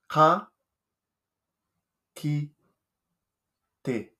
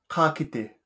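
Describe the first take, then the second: First: It is said slowly, syllable by syllable. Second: It is said at normal conversational speed.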